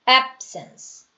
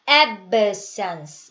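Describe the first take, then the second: First: The b is held with the lips closed. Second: The b is released with an added sound. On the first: The speaker calls it right. "ab 하고 음 하고 자크를 다시는 거예요" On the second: The speaker calls it wrong. "여기다가 소리를 넣어주시면 안 돼요. absence 이게 아니라"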